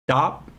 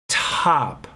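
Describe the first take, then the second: First: The t is released without a puff of air. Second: The t is released with a puff of air. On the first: The speaker calls it wrong. "you don't say top" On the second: The speaker calls it right. "you say top"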